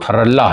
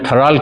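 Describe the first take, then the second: First: The name is said longer, as Tharalla. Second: The name is said short, as Tharal. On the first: The speaker calls it right. "उसका correct pronunciation है वो थरल्ला है" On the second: The speaker calls it wrong. "जो मैं थराल कह रहा था"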